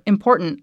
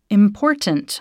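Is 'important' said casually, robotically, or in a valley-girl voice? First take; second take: valley-girl voice; robotically. First: The word is said in a put-on valley-girl voice. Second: The word is over-enunciated in a flat, robotic way. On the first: "like I was trying to be like a valley girl" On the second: "where I sounded too robotic"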